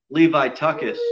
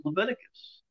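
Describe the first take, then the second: First: Leviticus as "lee-vye-TUCK-us"; playful mispronunciation. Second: Said in the usual way. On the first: Shown as a demonstration. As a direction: say Leviticus oddly, as "Levi-tuckus". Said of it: "If I say turn back to the book of". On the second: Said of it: "I am not making fun of the book of Leviticus".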